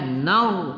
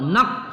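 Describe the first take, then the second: First: The word ends in a throaty gh sound. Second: The word ends in a k sound. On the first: The speaker calls it right. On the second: The speaker calls it wrong. "jangan nar ke bawah atau nak, salah ya"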